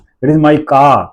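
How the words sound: The stress falls on the word car. "तो वहां car पे जोर लग रहा है"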